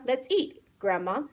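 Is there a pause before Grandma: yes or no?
yes. There is a pause before Grandma.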